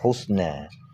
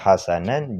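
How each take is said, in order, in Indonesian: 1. Huruf vokal pertama adalah 'u', dengan 's' tanpa vokal. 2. Huruf vokal pertama adalah 'a', dengan dua suku kata penuh. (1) "dibaca dengan dhammaha dan sukun sin" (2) "Jeta baca hasanan"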